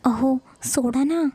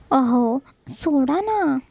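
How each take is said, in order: First: Slow embarrassed whisper; breathless bashful let go of me; shy whisper. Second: Very slow, coy plea; bashful slow let go of me; shy drawn-out plea. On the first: A narrator's reading. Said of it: "ती कसं तरी बोलते". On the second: Acted. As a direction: stretch it out, half protesting. Shy wife pleading to be released.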